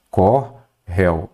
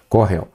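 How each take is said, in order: First: "Corréu" slowly split as cor... réu; syllable by syllable. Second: Said in the usual way. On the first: Shown as a demonstration. Teacher showing the old spelling, "Corréu" slowly in two parts. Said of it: "Antes era assim". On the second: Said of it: "Ele é aqui, ó".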